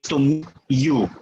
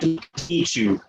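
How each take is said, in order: First: The t and y sounds stay separate. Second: The t and y sounds merge into one. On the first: "you don't necessarily say to meet you" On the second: "The T and the Y become uh, assimilated together"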